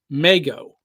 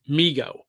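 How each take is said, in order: First: The first syllable rhymes with Lego. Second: The first syllable does not rhyme with Lego. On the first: It follows the spelling like Lego. The speaker calls it right. "that's how it should be pronounced" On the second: It follows the newer common usage. The speaker calls it wrong. "in recent years, people have been pronouncing it Migo"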